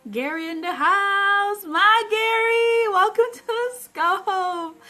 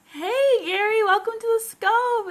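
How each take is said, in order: First: Slow, high, loud announcer-style welcome; drawn-out hype greeting. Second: High, loud burst of welcome; hey, Gary, called out high and loud; excited greeting. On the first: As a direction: stretch out "My Gary, welcome to the scope" slowly, higher and louder. Host hypes arriving viewer. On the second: Host greets arriving viewer. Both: Real, not acted.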